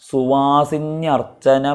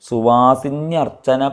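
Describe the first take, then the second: The two takes are said the same way.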